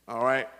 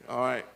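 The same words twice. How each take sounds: The two takes are said the same way.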